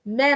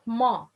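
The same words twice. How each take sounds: First: "Ma" with a thin, fronted vowel; light meem. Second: "ma" with a thick, backed vowel; wrong heavy meem. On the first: Teacher contrasts the right way, light meem. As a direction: say "Ma" light, close to "meh". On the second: Teacher shows what not to say, heavy meem. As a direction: say "ma" heavy, close to "maw". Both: Shown as a demonstration. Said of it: "Ma, not ma".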